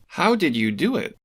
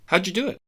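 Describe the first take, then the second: First: Every word is said slowly and separately. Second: The words run together, said very fast.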